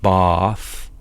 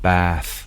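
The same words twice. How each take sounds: First: The vowel is a back 'ah' sound. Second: The vowel is a long front 'a' sound. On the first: "they don't make it bath" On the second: "they have this ae vowel, so but they lengthen it"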